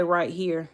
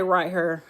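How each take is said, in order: First: Said in the usual way. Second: "right here" with "here" said like "hurr"; Southern "right here", "here" sounding like "hurr"; country "right here". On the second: Shown as a demonstration. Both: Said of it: "I don't say right here. I say right here".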